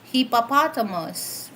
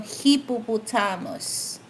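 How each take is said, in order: First: It is said with an American accent. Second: It is said with a Filipino accent. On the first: "for American" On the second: "But for Filipino"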